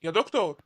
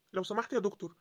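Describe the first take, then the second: First: Loud call across the corridor. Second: Said in the usual way. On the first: Acted. Father calling the doctor for news, a loud call. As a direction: raise the voice to stop him.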